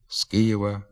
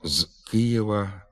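First: The phrase begins with a voiceless s sound. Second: The phrase begins with a voiced z sound. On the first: "А вимовляємо на місці прийменника «з» глухий «с»" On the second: "Пишемо"

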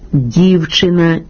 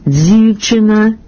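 First: The d sound is plain, without hissing. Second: The d sound has a hissing dz quality. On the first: The speaker calls it right. "замість «дівчина»" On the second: The speaker calls it wrong. "вимова «дзівчина» ... не є нормативна"

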